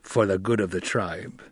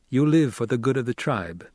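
First: Gruff, growled reply. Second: Measured, firm statement; steady, firm challenge to a tribesman. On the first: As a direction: growl the answer back. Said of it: "Stilgar growled". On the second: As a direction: put it to him as a challenge. Paul challenges Stilgar before his reply. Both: A narrator's reading.

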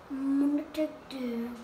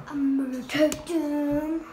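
First: Said in the usual way. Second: Louder, firm statement of intent; loud declaration. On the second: Real, not acted. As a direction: announce it loudly. Repeats line, much louder.

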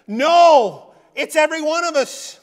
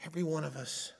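First: Loud and high, hammering every one of us; loud declaration. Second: Quiet echo. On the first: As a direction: shout it out to the whole church. Preacher shouts his point. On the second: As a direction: let it sink in, said softly. Quiet echo after the shout. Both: Real, not acted.

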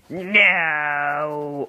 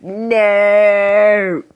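First: Said in the usual way. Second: Loud no. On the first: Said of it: "No, I'd be like". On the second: Retold or imitated. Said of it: "And I'd be like".

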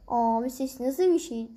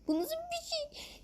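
First: Said in the usual way. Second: Very high, slow, soft squeak; squeaky voice. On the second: Pretend. Gamer mimicking a strange game sound, tiny high squeak.

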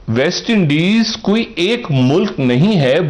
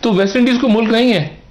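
First: Slow and deliberate, word by word; slow emphatic restatement. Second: Said in the usual way. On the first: Shown as a demonstration. Correcting a common belief for his co-host, slow and emphatic. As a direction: spell the point out slowly.

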